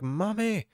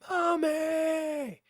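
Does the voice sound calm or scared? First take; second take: calm; scared. First: It is said in a calm, ordinary way. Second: It is said in a scared, desperate way.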